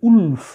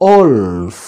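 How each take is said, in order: First: The word begins with an 'oo' vowel. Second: The word begins with an 'o' vowel. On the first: The speaker calls it wrong. "আমরা অনেক উচ্চারণ করি উলফ, এরকম নয়" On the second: The speaker calls it right. "ও থেকে শুরু হচ্ছে"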